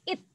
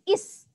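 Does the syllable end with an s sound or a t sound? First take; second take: t sound; s sound. First: The syllable ends with a t sound. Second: The syllable ends with an s sound. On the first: The speaker calls it right. "suku kata yang pertama itu dibacanya it" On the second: The speaker calls it wrong. "bukan is"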